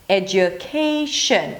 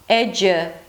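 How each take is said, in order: First: The second syllable has a full U vowel. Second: The second syllable has a reduced schwa vowel. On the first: "The next vowel is an U, as in cook" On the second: "then just drop it to a schwa"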